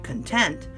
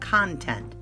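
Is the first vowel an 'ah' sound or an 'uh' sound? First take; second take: uh; ah. First: The first vowel is a short 'uh' sound. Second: The first vowel is an open 'ah' sound. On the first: It means happy or satisfied. "like a short U sound" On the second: It names ideas or subject matter. "It's got the ah on the beginning of it"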